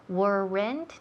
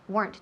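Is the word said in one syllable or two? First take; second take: two; one. First: The word is split into two syllables. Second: The word is said as one syllable. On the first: The speaker calls it wrong. "No son dos sílabas" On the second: The speaker calls it right. "one syllable"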